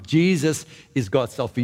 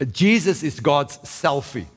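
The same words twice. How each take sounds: First: Said in the usual way. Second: Slow and deliberate, each word weighed; slow punchline. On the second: Retold or imitated. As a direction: let the quote land slowly. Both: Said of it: "I heard somebody once says".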